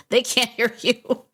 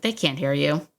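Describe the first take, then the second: First: Slower "they can't hear you" with "they" raised and punched; stress on they. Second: Said in the usual way. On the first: Shown as a demonstration. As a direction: lean hard on "they" and drag the line out. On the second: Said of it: "Newsflash, they can't hear you".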